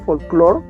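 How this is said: The word is pronounced the English way. "no con el, la pronunciación de, en inglés"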